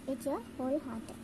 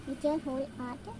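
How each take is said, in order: Both takes have the same delivery.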